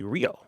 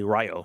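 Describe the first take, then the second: First: The first vowel sounds like 'ee'. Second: The first vowel sounds like 'eye'. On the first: The speaker calls it right. "the I is actually phonetically sounded out as E" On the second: The speaker calls it wrong. "you don't say Rio"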